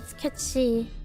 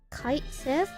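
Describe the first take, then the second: First: It sounds like 'catchy'. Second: It sounds like 'kite sith'. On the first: The speaker calls it right. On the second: The speaker calls it wrong. "that's not how you pronounce it either"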